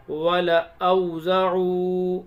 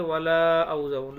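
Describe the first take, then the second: First: "वलअउज़उ" recited slowly with a short ल and long ending; unstretched लाम. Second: "वलअउज़उ" with the ला drawn out long; stretched लाम. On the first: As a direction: keep the ल short in "वलअउज़उ", loud and slow. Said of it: "लाम को नहीं खींचेंगे". ("वलअउज़उ" में ल छोटा, धीमी तिलावत) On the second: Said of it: "पढ़ा क्या जाना चाहिए". ("वलअउज़उ" में ला लंबा खींचकर) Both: Shown as a demonstration.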